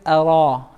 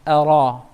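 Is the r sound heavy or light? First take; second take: heavy; heavy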